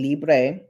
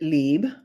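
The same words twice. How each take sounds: First: The word is pronounced the Spanish way. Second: The word is pronounced the French way. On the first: The speaker calls it wrong. "And I've been saying Libre" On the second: The speaker calls it right. "It's a French word. And they pronounce it Libre"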